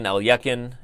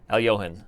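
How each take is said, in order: First: The last syllable starts with a hard k sound. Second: The last syllable starts with a soft h sound. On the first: The speaker calls it wrong. "it depends on how you say" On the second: The speaker calls it right. "there's no kiss sound. It's like the K and the H is like a like a h"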